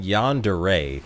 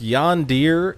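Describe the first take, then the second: First: "yandere" as yon-duh-ray, slowly and distinctly; slow down on "yandere", ending in ray; variant pronunciation. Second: "yondir" as yon-deer, slowly and distinctly; slow down on "yondir", ending in deer; variant pronunciation. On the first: Streamer defending both pronunciations to chat, yon-duh-ray variant. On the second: Streamer defending both pronunciations to chat, yon-deer variant. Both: Shown as a demonstration. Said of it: "I have heard it called both".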